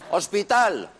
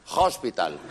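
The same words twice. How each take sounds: First: It is said with a Spanish accent. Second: It is said with an English accent. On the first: "coger una palabra en español" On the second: "cambiarle la entonación"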